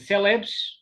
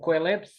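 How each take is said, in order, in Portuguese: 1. A palavra começa com um som 's'. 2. A palavra começa com um som 'ko-eh'. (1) "em geral digo celebs" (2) "Mas escreve-se coelebs"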